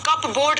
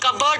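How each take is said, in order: First: It is said as 'cup' plus 'board'. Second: It is said as 'kubbered', without a 'p'. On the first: The speaker calls it wrong. "कप बोर्ड नहीं" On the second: The speaker calls it right. "कबर्ड होता है"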